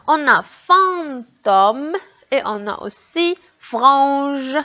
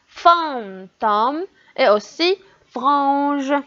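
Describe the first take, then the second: First: Fantôme and frange, slowly spelled; slow demo words. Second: Fantôme et aussi frange, slowly stretched; slower demo words. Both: Shown as a demonstration. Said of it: "dis si tu entends fr".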